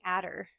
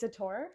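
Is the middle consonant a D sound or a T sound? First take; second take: D sound; T sound. First: The middle consonant is a D sound. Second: The middle consonant is a T sound. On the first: The speaker calls it wrong. "I remember it being Adder" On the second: The speaker calls it right. "but it's a Tor"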